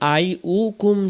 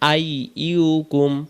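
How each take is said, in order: First: The second syllable starts with a plain 'u' vowel. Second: The second syllable starts with a 'y' glide: 'yu'. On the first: The speaker calls it wrong. "আমরা অনেকে বলি আই উকুম ... হামজা পেশ উ হয়ে যায়" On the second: The speaker calls it right. "ইয়া পেশ ইউ"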